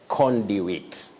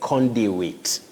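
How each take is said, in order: The two takes are said the same way.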